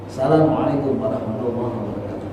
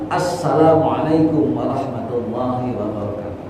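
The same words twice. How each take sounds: First: The opening 'a' sound is not heard. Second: The opening 'a' sound is clearly heard. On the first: The speaker calls it wrong. "Kedengarannya terus salah. A-nya nggak kedengaran" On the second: The speaker calls it right. "Jadi yang sempurna"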